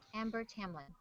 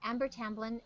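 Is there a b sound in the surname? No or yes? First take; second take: no; yes. First: The surname has no b sound in it. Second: The surname has a b sound in it. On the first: The speaker calls it right. "Amber Tamlin, not Tamblyn" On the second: The speaker calls it wrong. "Why do I say Tamblyn?"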